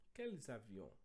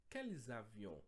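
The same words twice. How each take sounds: The two takes are said the same way.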